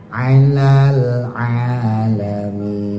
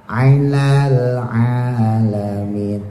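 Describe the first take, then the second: No difference in how they are said.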